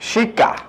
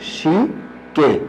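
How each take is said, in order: First: The final vowel is an open 'a'. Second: The final vowel is a mid 'e'. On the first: "শিকা শব্দটার প্রথমে আছে রস্যই স্বরটা, আর পরবর্তীতে স্বর কি আছে, আ।" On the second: "আ পরিবর্তন হয়ে এ হয়ে গেছে"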